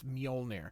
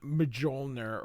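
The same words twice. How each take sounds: First: The J sounds like a y. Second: The J sounds like an English j. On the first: The speaker calls it right. "I'm pronouncing the J with the I sound" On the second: The speaker calls it wrong. "not Mjolnir or something like that"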